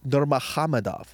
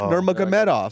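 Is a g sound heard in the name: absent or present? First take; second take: absent; present. First: The name is said without a g sound. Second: The name is said with a g sound. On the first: The speaker calls it right. "you don't say the fucking G's" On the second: The speaker calls it wrong. "It's not Nurmagomedov"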